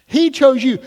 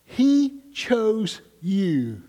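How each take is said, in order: First: Much louder, higher, driving it home; preaching shout. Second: Very slow, tender stress on he; gentle emphasis. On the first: Acted. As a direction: proclaim it to the congregation. Preacher repeats at full force. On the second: Retold or imitated. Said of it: "What she was saying to them".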